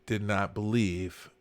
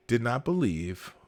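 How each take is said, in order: Both takes have the same delivery.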